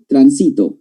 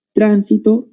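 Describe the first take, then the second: First: Transito with the stress moved to SI; stress on second syllable. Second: Tránsito with the stress on TRAN, said higher; stress on first syllable. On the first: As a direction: land on SI in transito, tran-SI-to. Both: Shown as a demonstration. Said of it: "Porque cambia el acento".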